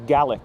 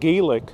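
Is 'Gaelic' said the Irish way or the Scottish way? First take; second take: Scottish; Irish. First: It is said the way it is in Scotland. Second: It is said the way it is in Ireland. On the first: "I've heard it many, many times here being pronounced as Gaelic, uh, Scottish" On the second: "in Ireland, it's pronounced Gaelic"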